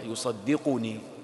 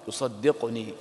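First: The qaf is said with a u vowel after it. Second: The qaf is said with no vowel after it. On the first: It describes a state. "بالرفع" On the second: It answers the request. "بسكون القاف"

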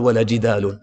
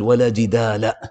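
First: The word jidal ends in the nunated ending un. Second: The word jidal ends in the short vowel a. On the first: Only a single instance of disputing is negated. "ما قال ولا جدال" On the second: Every kind of disputing is negated. "بل قال ولا جدال"

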